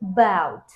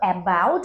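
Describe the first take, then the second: First: The first vowel is a weak, reduced schwa. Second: The first vowel is a full, clear vowel. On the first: The speaker calls it right. "এই সাউন্ডটা কিন্তু খুবই কম শোনা যাচ্ছে" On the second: The speaker calls it wrong. "আমরা কিন্তু অ্যাবাউট বলছি না"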